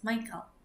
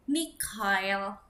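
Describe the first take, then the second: First: The name is pronounced with English sounds. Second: The name is pronounced with German sounds. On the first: The speaker calls it wrong. "ejaan untuk hmm, bahasa Inggris" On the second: The speaker calls it right. "dalam bahasa Jerman dibacanya Mikhail"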